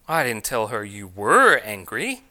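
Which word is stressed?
were. The stress falls on the word were. The anger is said to continue now. "I told her you still are angry"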